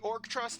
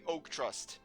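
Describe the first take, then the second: First: The first part sounds like the word orc. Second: The first part sounds like the word oak. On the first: "You're either gonna get the orcs" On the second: "or you're gonna be getting Professor Oak"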